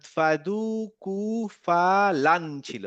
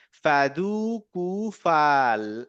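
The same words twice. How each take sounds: First: ফাদুকু ফালান drawn out very slowly, with a clear নুন at the end; slow recitation. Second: ফাদুকু ফাল- stretched very slowly, the নুন cut off; slow recitation. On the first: Teacher to student, slowly reading ফাদুকু ফালান. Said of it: "তাহলে ফাদ". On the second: Teacher to student, slowly reading ফাদুকু ফাল- without the noon. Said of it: "কেটে দিয়ে তাহলে কি হলো". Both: Shown as a demonstration.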